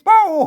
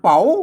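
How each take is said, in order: First: The syllable is said with a falling tone. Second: The syllable is said with a rising tone. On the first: "เสียงโทพิเศษ" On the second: "เสียงจัตุวาย"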